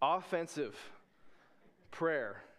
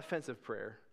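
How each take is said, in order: First: The stress is on the first syllable. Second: The stress is on the second syllable. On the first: The prayer is used for attacking, not defending. The speaker calls it right. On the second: The prayer would be insulting to people. The speaker calls it wrong. "Not offensive prayer"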